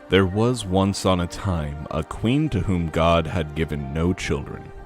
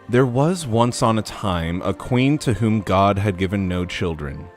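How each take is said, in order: First: It is said in a deeper voice. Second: It is said in the normal voice.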